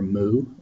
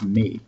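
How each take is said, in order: First: The word sounds like 'moo', with no y-glide. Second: The word sounds like 'mee', with a front vowel. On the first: "like a cow" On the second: "the actual way to pronounce it in Greek"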